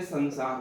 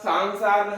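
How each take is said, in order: First: The first vowel is a short a. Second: The first vowel is a long aa. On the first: The speaker calls it right. "आप बोलेंगे संसार होता है" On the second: The speaker calls it wrong. "सांसार नहीं होता है"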